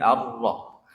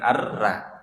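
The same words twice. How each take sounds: First: 'Ar-Rah' with the vowel coloured to O; thick ra. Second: 'Ar-Ra' with a light open a; wrong thin ra. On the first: Teacher correcting the thin version, thickened ra. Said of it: "Huruf vokalnya yang keluar O". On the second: Teacher showing what to avoid, thin ra. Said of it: "bukan Ar-Ra". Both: Shown as a demonstration.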